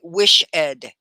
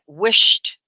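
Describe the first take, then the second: First: The word is said as two syllables. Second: The word is said as one syllable. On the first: The speaker calls it wrong. "you don't say wish ed" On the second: The speaker calls it right. "It's one syllable"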